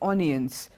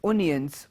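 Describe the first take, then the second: No difference in how they are said.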